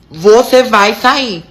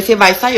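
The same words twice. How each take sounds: First: Bem devagar, cada palavra marcada; ordem enfática. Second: Said in the usual way. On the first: Retold or imitated. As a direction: repita a ordem pausadamente, com firmeza. Repete a ordem com ênfase. (ordem retomada, lenta e firme)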